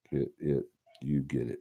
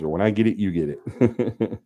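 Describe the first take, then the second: First: Said in the usual way. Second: Slow, laughing catchphrase, lightly voiced; Michelle's catchphrase. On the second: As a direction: drawl it out through a laugh. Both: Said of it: "That's what Michelle said".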